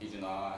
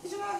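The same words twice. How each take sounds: First: It is said in a low-pitched voice. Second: It is said in a high-pitched voice.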